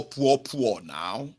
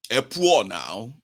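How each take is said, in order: First: "poor, poor" drawled slowly with a rise; slow mocking chant; slow repeated taunt. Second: Drawled slowly, "poor" rising; lazy singsong taunt; slow mocking drawl. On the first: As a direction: rub it in slowly. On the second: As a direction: tease them slowly with "poor now". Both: Shown as a demonstration.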